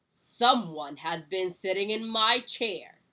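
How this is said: It is said in a great big voice.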